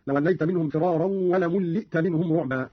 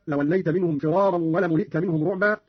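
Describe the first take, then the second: First: ولملئت as "wa la-mulli'ta", lam held double; Qalun's doubled lam. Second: Said in the usual way. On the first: Shown as a demonstration. Teacher showing Qalun's reading, ولملئت with doubled lam. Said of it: "قرأ قالون بتشديد اللام هكذا". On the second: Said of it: "قرأ قالون بتشديد اللام".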